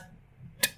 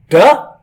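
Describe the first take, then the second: First: The d sound is said with no vowel. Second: The d sound is followed by a vowel. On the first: The speaker calls it right. "it is pronounced as d" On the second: The speaker calls it wrong. "It is not pronounced as duh"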